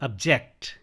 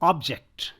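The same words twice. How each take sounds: First: The stress is on the second syllable. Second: The stress is on the first syllable. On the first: It is used as a verb. "and here" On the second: It is used as a noun. "As noun"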